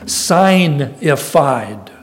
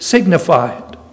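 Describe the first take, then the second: First: The first syllable is said as 'sign', like signs. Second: The first syllable is said as a short 'sig'. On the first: It means made known by signs. "if you want to pronounce it more accurately" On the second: It is the ordinary English word. "in English should be translated signified"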